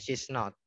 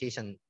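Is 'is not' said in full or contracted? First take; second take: full; contracted. First: The words are said in full, unshortened. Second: The words are shortened into a contraction. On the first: It sounds clearer. "Kalau misalnya dia tidak tidak singkat, itu jelaskan" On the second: It sounds less clear. "kalau dia singkat itu biasanya kurang jelas"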